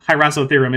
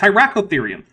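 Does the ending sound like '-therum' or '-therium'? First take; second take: -therum; -therium. First: The ending is said as '-therum'. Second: The ending is said as '-therium'. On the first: The speaker calls it wrong. "isn't a thing" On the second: The speaker calls it right. "It's Hyracotherium"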